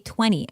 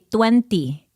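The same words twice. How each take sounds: First: It is said with a standard American accent. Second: It is said with a Filipino accent. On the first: The speaker calls it right. "I couldn't say twenty" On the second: The speaker calls it wrong. "I used to say twenty"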